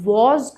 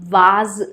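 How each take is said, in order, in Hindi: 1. यह स्वर गोल होंठों वाली 'aw' ध्वनि है। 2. यह स्वर खुली 'ah' ध्वनि है।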